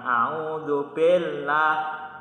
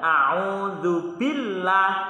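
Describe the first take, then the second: First: The vowel in billah sounds like e. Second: The vowel in billah sounds like i. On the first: The speaker calls it wrong. "jadi jangan a'udzu billah" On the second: The speaker calls it right. "kasroh itu bacanya i bukan e"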